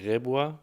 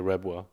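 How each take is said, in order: First: The name is said with a German pronunciation. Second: The name is said with an English pronunciation. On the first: This is how German speakers say the name. "the Germans call me Rebois" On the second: This is how English speakers say the name. "the English say Rebois"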